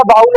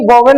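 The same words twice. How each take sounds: First: बाउल with an "au" glide, no middle v; teacher's preferred बाउल, gliding "au"; corrected pronunciation. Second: वोवेल with an "o-ve" middle; the mistaken reading वोवेल, v in the middle; wrong pronunciation. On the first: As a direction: say बाउल run together as "baa-ul". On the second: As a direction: say वोवेल in two syllables, v sounded mid-word. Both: Shown as a demonstration. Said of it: "वोवेल नहीं होता, बाउल होता है".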